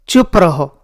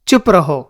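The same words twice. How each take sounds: The two takes are said the same way.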